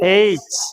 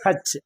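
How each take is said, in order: First: The word begins with a vowel sound. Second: The word begins with an h sound. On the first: The speaker calls it right. "எயிச் தான் உச்சரிக்கணும் தனிப்பட்டு இந்த லெட்டரை" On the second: The speaker calls it wrong. "ஆனா நம்ம என்ன சொல்றோம்?"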